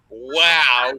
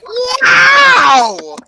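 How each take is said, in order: First: Said in the usual way. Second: Piercing high parrot shout; very loud. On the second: Retold or imitated. Imitating a relative's bird, very loud shout. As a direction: screech it out long, very loud. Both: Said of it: "very loudly like this".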